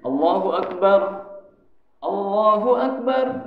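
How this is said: The two phrases are separated by a pause. "kalau mau pisah"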